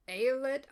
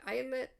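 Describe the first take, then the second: First: Eilat said "AY-lət"; first try at Eilat, opening like "ay" in day; unsure pronunciation. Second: Eilat said "EYE-lit"; second try at Eilat, opening like "eye"; second-try pronunciation. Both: Shown as a demonstration. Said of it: "I'm so sorry".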